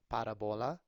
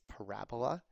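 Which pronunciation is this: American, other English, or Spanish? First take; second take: Spanish; American. First: It is said with a Spanish pronunciation. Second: It is said in an American English way. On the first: "if you say it in Spanish" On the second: "Emphasis on the ra. ... at least in the United States"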